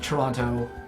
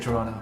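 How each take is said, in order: First: The second T is clearly pronounced. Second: The second T is silent. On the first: This is how outsiders say it. The speaker calls it wrong. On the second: This is how locals really say it. The speaker calls it right.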